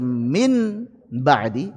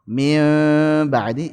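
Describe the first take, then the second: First: The n is pronounced fully and clearly. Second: The n is hidden, lightly nasalized. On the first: "tidak cocok dibaca min ba'di izhar"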